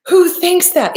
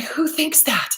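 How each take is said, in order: First: Much higher, louder outraged who thinks that; louder incredulous repeat. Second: Said in the usual way. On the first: Real, not acted.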